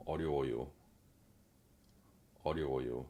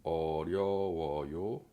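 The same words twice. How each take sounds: First: 어려워요 with even syllables, no stress; flat even 어려워요, quick; 어려워요 light and even; correct Korean. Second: 어려워요 with French stress on the end; the learner's 어려워요, last syllable pushed; imitating her stress. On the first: Shown as a demonstration. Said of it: "on dit plutôt". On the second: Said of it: "elle fait un peu o".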